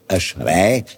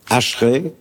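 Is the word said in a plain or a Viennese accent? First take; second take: Viennese; Plain. First: It is said with a Viennese accent. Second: It is said without a Viennese accent. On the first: The speaker calls it wrong. "also nicht wienerisch Ashrei" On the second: The speaker calls it right. "sondern Ashrei"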